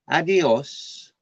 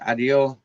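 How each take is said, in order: First: It is said with a Madrid accent. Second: It is said with an Andalusian accent. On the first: "Madrid, uh, Spanish, they would say adios" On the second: "in Andalusia they says uh"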